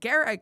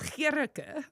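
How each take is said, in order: First: The name is said with an Americanized pronunciation. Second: The name is said with its native pronunciation. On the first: The speaker calls it wrong. "I guess, how they say it here. And so I just adopted a weird way of saying it" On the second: The speaker calls it right. "the way you pronounce it is Gierke. That's pretty"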